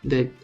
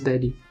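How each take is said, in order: First: The word ends on the final consonant. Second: The word ends with an added ee vowel. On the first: The speaker calls it right. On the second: The speaker calls it wrong.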